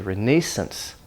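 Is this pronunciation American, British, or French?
British. It is said with a British pronunciation. "British people say"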